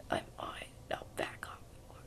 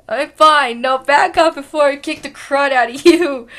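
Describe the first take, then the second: First: Unvoiced threat; whisper. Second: Loud warning with a laugh at the end; tough threat. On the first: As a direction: hiss a threat softly. Whispered line. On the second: Acted. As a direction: threaten loudly, breaking into a laugh. Threat, louder retake.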